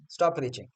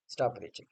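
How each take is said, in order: First: Said in the usual way. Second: Quiet repeat. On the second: Real, not acted. Telling a retired cricketer off again, quiet weary repeat. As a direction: lower and much softer, dropped to a near mutter.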